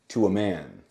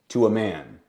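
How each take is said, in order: First: The word 'a' is a short 'uh' sound. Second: The same.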